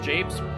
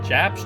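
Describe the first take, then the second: First: The vowel is long, as in grapes. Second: The vowel is short, as in cap. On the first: The speaker calls it right. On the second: The speaker calls it wrong.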